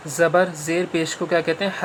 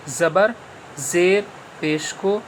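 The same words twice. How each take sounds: First: Said in the usual way. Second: Slowed, each word spelled out for students; slow and clear. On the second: Shown as a demonstration. Teacher repeating for pupils, slow and clear. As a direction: say it slowly so the class hears it again. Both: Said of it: "پھر سے سن لیجئے".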